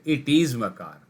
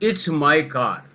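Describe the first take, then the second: First: It and is are said as separate words. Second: It is shortened to one syllable, its.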